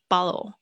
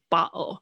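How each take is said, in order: First: The t is a soft flapped d sound. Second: The t is dropped completely, British style.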